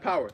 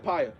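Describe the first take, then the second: First: Said in the usual way. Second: "power" slipped into "pie-uh"; accidental "pie-uh" for "power". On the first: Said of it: "Uh, I, I said power". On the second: Real, not acted. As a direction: say "power" with an EYE vowel, like "pire". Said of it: "I said power".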